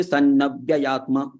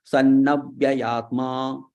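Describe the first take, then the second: First: Sannavyayatma with a short a before vya; the teacher shows the wrong way, sannavyayatma with the vowel kept short; wrong short take. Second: Sannavyayatma said slowly with the pa vowel drawn out long. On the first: Teacher shows students the wrong reading, short vowel. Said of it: "you should not say". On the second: Teacher corrects students' Sanskrit reading, slow long vowel. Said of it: "So it is dirgha". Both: Shown as a demonstration.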